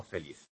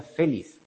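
First: Said in the usual way. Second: Feliz read as FÉ-liz; stress on first syllable. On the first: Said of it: "no feliz". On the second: Shown as a demonstration. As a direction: shift the accent in feliz onto FE, away from LIZ. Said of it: "a la hora de leerlo".

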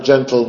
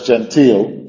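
First: "gentle" as GEN-tl, weak last syllable; "gentle" stressed on the first syllable; correct pronunciation. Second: "gentil" with a clear EE in the last syllable; "gentil" said like English genteel; pronounced with I. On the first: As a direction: say "gentle" with no I sound at the end. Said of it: "no tiene otra forma de pronunciarlo". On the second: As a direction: say "gentil" as gen-TEEL. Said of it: "con una I en medio". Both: Shown as a demonstration.

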